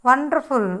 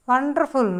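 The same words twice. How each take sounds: The two takes are said the same way.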